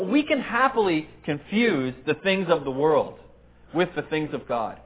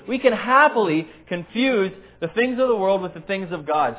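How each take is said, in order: First: The word happily has normal, unmarked stress. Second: The word happily carries strong extra emphasis.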